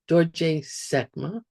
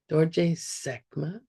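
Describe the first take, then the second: First: It is said with a low tone. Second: It is said with a low tone.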